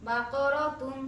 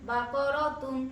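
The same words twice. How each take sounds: The two takes are said the same way.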